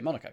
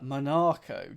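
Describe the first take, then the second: First: It is said in a plain, everyday way. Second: It is said in a posh-sounding way. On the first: "Here, I say Monaco" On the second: "Monaco just feels very posh"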